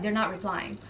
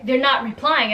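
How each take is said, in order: First: Soft, low relayed reply; downplayed report. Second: "They're not replying" said firmly at full voice; emphatic repeat. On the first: Friend reporting back on the guests, soft and low. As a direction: drop it low and quiet. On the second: Retold or imitated. Storyteller repeating the bad news to viewers, emphatic.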